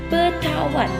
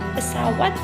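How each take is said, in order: First: The middle consonant is a t sound. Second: The middle consonant is an s sound.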